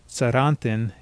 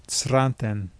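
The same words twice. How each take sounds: No difference in how they are said.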